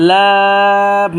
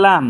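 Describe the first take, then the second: First: লাম held very long, loud and level; drawn three counts. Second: Said in the usual way. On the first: Shown as a demonstration. Teacher models a letter for learners, drawn very long. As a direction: stretch the vowel of লাম on one note. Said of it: "এবং তিন আলিফ টানবো". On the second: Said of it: "এ হরফটার নাম হচ্ছে".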